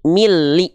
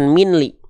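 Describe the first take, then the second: First: The n merges into the l sound. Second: The n sound is pronounced before the l. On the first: The speaker calls it right. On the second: The speaker calls it wrong. "bukan minli"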